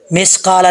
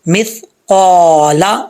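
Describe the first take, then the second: First: The middle consonant is a hissing 's' sound. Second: The middle consonant is a soft 'th' sound. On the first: The speaker calls it wrong. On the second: The speaker calls it right.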